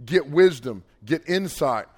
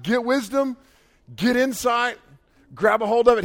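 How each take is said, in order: First: Said in the usual way. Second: High, forceful urging; emphatic cheering-on. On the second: Acted. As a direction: drive each command home, like cheering someone on. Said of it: "like, aggressively".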